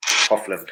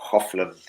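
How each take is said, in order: First: Hofland said with a clear h, as hofland; corrected pronunciation. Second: Hofland said without the h, as ofland; h dropped. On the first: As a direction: sound the h in Hofland. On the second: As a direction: drop the h in Hofland. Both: Shown as a demonstration.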